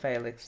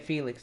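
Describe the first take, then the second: First: The name is said with a non-English pronunciation. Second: The name is said with an English pronunciation. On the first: "That's what the commentators say all the time" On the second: "with the English pronunciation"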